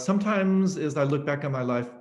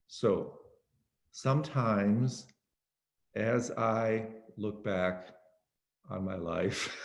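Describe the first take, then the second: First: The phrase is spoken at a quick pace. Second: The phrase is spoken extremely slowly and drawn out.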